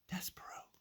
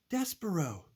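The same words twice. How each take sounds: First: The name is said in a whisper. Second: The name is said in a shout.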